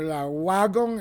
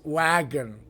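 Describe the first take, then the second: First: "la wagon" with a Spanish article and Spanish vowels; Spanish-style wagon. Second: "wagon" with no article and English vowels, lower and softer. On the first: Teacher to students, showing the wrong Spanish-style word. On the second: Teacher to students, giving the correct English word. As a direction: say "wagon" the English way, as the right version. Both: Shown as a demonstration. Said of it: "eso es español".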